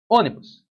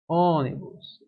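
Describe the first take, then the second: First: Said in the usual way. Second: "Ônibus" com o Ô inicial bem esticado; tônica alongada. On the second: Shown as a demonstration. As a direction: prolongue a primeira sílaba de "Ônibus". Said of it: "a sílaba tônica tá aqui no início". (Ô demorado em "Ônibus", mostrando a tônica)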